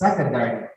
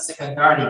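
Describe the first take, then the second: First: The stress is on the first syllable. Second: The stress is not on the first syllable. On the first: The speaker calls it right. "but it's secondary" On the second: The speaker calls it wrong. "No, this is wrong. It's not secondary"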